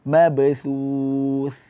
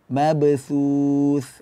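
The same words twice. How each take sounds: First: The consonants are soft 'th' sounds. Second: The consonants are soft 'th' sounds.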